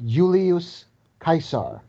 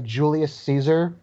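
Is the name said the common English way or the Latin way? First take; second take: Latin; English. First: The name is said the classical Latin way. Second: The name is said the common English way. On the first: The speaker calls it right. "It's actually Julius Caesar" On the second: The speaker calls it wrong. "you know how everyone calls the guy Julius Caesar?"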